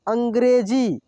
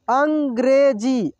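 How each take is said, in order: First: Said in the usual way. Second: अंग्रेजी drawn out slowly, syllable by syllable; slow sounding out. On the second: Shown as a demonstration. Teacher slowly reads अंग्रेजी for students to repeat. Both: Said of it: "मैं अब बहुत आराम से पढ़ा रहा हूँ".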